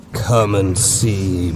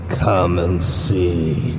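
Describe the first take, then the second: First: "Come" stretched out, slow and inviting; slow luring call. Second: "Come and see" drawn out very slowly, fading; very slow final call. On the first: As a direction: draw out "Come and see" like a lure. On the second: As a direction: let "Come and see" hang, barely moving. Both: A narrator's reading. Creature lures the soldier.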